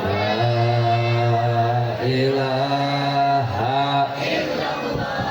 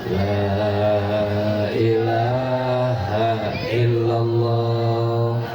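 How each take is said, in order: No difference in how they are said.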